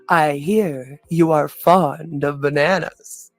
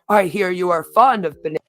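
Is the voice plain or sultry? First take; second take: sultry; plain. First: It is read in a put-on sultry voice. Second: It is read in a plain, ordinary voice.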